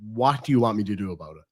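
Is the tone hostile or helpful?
helpful. It sounds sincere and willing to help.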